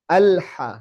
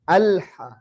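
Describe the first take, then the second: First: The l sound is held only moderately. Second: The l sound is held only moderately.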